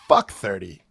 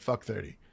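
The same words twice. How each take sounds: First: It is hit hard as a firm statement. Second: It is tossed off casually with little weight.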